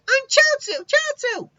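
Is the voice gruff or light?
light. It is a light, ungruff character voice.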